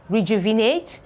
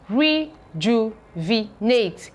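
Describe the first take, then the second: First: Said in the usual way. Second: Rejuvenate split slowly, re-ju-ve-nate; teacher splitting rejuvenate slowly; slow syllable pairing. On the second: Shown as a demonstration. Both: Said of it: "You can see how it is being paired".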